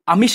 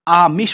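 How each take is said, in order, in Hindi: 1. पहला स्वर छोटा है। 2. पहला स्वर बड़ा है। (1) "आमिष नहीं होता है" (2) "बड़ी आ की मात्रा आएगी"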